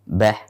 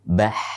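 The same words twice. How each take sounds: First: The final h stops short with little breath. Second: The final h flows out with steady breath. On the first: The speaker calls it wrong. "Bukan bah ... maka ini kurang" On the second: The speaker calls it right.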